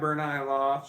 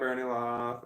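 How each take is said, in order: First: The first name ends with an 'eye' sound. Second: The first name ends with an 'ee' sound. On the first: The speaker calls it right. "It's Bernai" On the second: The speaker calls it wrong. "I've been saying your name wrong for so long"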